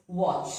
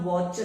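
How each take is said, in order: First: "watch" as woch; "watch" with no separate T; silent T. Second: "watch" wrongly with a separate T; T sounded. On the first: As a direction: blend "watch" straight into ch. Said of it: "but it's watch". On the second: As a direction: pronounce the T in "watch" apart from the ch. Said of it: "So it is not watch". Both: Shown as a demonstration.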